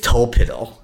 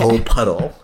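First: The middle syllable has an 'ih' vowel. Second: The middle syllable has an 'uh' vowel. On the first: This is how the name is actually said. "I think it's Tolpiddle" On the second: This is how the name is written. "even though it's spelled okay"

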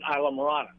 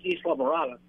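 First: The name is said with English sounds. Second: The name is said with Spanish sounds. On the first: "in English we pronounce it" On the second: "the Spanish name is"

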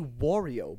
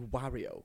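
First: The first syllable sounds like 'what'. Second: The first syllable sounds like 'Mar-' in Mario. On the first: The speaker calls it wrong. "I say Wario, ... But I say what?" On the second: The speaker calls it right. "it's definitely Wario. ... Because it's Mario and Wario"

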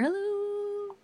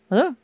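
First: It is shouted desperately, hoping for any answer. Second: It is called out loudly to demand attention. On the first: The speaker hopes that anybody at all is there. "shouting it in the desperation and hope that somebody will hear" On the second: The speaker politely demands someone's attention. "so you shout it"

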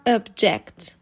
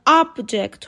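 First: The stress is on the second syllable. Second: The stress is on the first syllable. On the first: It is a verb meaning to oppose. "به صورت verb object" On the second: It is a noun meaning a thing. "در حالت noun object خونده می شد"

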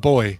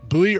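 First: The word is pronounced exactly like 'boy'. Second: The word is not pronounced like 'boy'.

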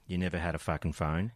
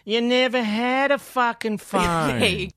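First: It is said in the speaker's normal voice. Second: It is said in a put-on character voice. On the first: The speaker calls it wrong. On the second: The speaker calls it right.

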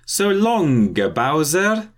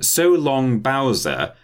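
First: It is said in an Italian accent. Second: It is said in a plain accent.

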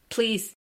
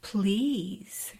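First: It is said flatly, without enthusiasm. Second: It is said in a sexy, sultry voice.

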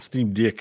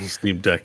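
First: It is said in an Australian accent. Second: It is said in a plain American accent.

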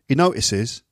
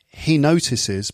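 First: The T in notices is dropped. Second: The T in notices is clearly pronounced. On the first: The speaker calls it right. "T sounds get dropped" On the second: The speaker calls it wrong. "So it's not he notices"

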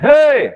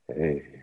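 First: It is said loudly, projected outward. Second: It is said in a deep, contained voice.

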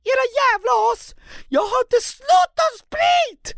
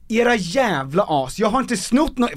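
First: It is said in a high, unbroken child's voice. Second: It is said in a deeper, adult voice.

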